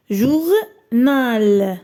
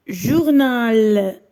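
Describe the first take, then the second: First: "journal" broken into jour and nal; "journal" in two long beats; syllable by syllable. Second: "Journal" drawn out as one word; "Journal" whole and lengthened for listening; slow clear model. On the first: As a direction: separate and stretch both syllables of "journal". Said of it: "غادي نحددوا الخانة". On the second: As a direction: say "Journal" joined, with a long falling final syllable. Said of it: "repère le son qui se répète". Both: Shown as a demonstration.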